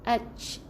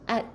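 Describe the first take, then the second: First: The final t is released with strong air. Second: The final t is released with little air. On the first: The speaker calls it wrong. "kita lepaskan angin uh, di hujung lidah tu arch, jadi tertukar dengan huruf cha" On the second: The speaker calls it right. "jadi tak boleh banyak sangat bunyikan anginnya"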